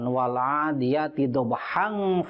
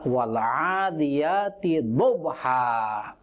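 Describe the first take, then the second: First: The last word ends with a nasal 'ng' sound. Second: The last word ends with a plain long vowel. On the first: The recitation continues into the next verse. "Kalau diwasolkan" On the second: The recitation stops at the end of the verse. "kalau diwakaf berdiri, berhenti di akhir ayat"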